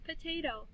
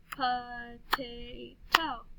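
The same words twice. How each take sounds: First: Said in the usual way. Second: POTATO very slowly, po-ta-to; stretched-out "Po-ta-to"; clapped syllables. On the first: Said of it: "listen to these words". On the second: Shown as a demonstration. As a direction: chant "Potato" in three long beats. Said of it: "then we'll clap the syllables".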